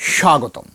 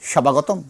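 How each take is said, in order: First: No b sound, the s is said forcefully. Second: A separate b sound follows the s. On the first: The speaker calls it right. "একদম জোর দিয়ে" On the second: The speaker calls it wrong. "স্বাগতম না"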